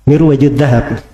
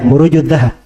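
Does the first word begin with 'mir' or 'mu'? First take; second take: mir; mu. First: The first word begins with 'mir' and has 'waj'. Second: The first word begins with 'mu' and has 'ruj'. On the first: The speaker calls it wrong. "dia bacanya kalau nggak salah Mirwaju Mirwajud Dahab bacanya" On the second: The speaker calls it right. "Nah, itu baru benar maknanya"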